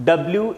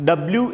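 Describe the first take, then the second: No difference in how they are said.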